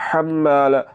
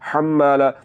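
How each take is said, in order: Both takes have the same delivery.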